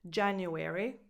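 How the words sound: The word is said with four syllables. "American English"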